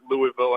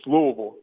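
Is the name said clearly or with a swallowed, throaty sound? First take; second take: clearly; throaty. First: The name is said clearly, every syllable spelled out. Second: The name is said swallowed, throaty and run together. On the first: An outsider is saying the name. The speaker calls it wrong. "wait for a Yankee to come down here and pronounce it Louisville" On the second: A local is saying the name. The speaker calls it right. "that like gargle in the back of my throat"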